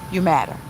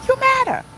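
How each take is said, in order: First: Lower, settled "you matter"; "matter" laid down low and gentle; soft reassurance. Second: High ringing stress on You; "You" flung up high, then "matter" falls; emphatic declaration. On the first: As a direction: tell her quietly that she matters. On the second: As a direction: proclaim "You" high and strong. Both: Real, not acted. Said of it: "let me be the first person to tell".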